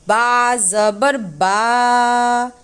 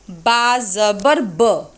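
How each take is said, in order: First: The final vowel is drawn out long. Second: The final vowel is said short and quick. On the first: The speaker calls it wrong. "is it correct or wrong?" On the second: The speaker calls it right. "quickly, neither prolonged nor recited with a jerk"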